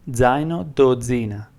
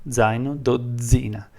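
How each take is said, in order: The two takes are said the same way.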